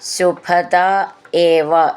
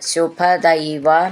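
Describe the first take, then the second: First: The words are said as separate words. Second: The words are run together into one form.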